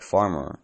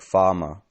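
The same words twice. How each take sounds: First: "farmer" with both R's clearly sounded; "farmer" said the American way, R after each vowel; rhotic farmer. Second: "farmer" said "fahmuh", no R's at all; "farmer" the British way, R's dropped after vowels; non-rhotic farmer. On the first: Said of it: "farmer are pronounced with no R's". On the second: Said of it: "pronounced with no R's". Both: Shown as a demonstration.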